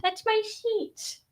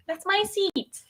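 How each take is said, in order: First: High and slow, "sheet" with a sh sound for the s; playful slurred s. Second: High-pitched, "seat" with a clean s; playful seat. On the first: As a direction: draw it out, "sheet" opening on a mushy sh. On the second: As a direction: squeak it, "seat" starting with a plain s sound. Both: Pretend. Playful line said twice, altered.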